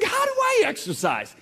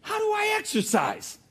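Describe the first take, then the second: First: Very high, louder pleading voice; mock whiny plea; plaintive question. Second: Very high, pleading voice; mock whiny plea; plaintive question. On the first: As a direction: whine it up to God. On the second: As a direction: whine the question to God. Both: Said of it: "I said".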